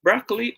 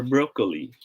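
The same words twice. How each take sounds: First: Broccoli as BRAHK-lee; open O in broccoli. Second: Broccoli as BROH-kuh-lee; long O in broccoli. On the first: Teacher quizzing viewers, broccoli as BRAHK-lee. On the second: Teacher quizzing viewers, broccoli as BROH-kuh-lee. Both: Shown as a demonstration. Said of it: "how should we pronounce this word".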